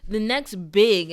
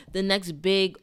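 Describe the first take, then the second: First: Big drawn out slow and loud, falling; stress on big. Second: Said in the usual way. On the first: Shown as a demonstration. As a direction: lean hard on big, slowly. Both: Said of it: "and this is really literal".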